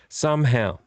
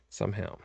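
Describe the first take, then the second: First: Said in the usual way. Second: Soft, low, trailing away; muttered aside. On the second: Real, not acted. Vlogger doubting the night can be reclaimed, soft mutter. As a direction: say it under your breath.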